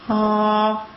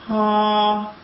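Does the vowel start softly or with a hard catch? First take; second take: softly; softly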